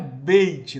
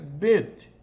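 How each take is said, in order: First: The vowel ends with an added y glide. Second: The vowel is a plain long e without glide. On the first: The speaker calls it wrong. "Não é beit, não" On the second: The speaker calls it right. "o Yod aí tá, ele não, não, não se pronuncia"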